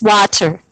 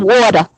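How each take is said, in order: First: The word is said crisply, with a clear middle sound. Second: The word is said loosely, with a lazy middle sound. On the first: The speaker calls it right. "when it's water" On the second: The speaker calls it wrong. "I want some water"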